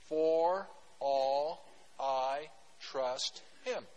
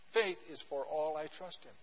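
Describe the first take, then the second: First: For all I trust Him, drawn out very slowly word by word; spelling out the acronym. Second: Said in the usual way. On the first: Shown as a demonstration. Pastor spelling out the FAITH acronym to the church, very slow. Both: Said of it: "FAITH, F A I T H".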